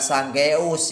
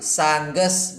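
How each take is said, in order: First: The second vowel is a central 'eu' sound. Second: The second vowel is a plain 'e' sound. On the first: The speaker calls it wrong. "bukan sanggeus ya" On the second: The speaker calls it right. "Dibacanya sangges maung"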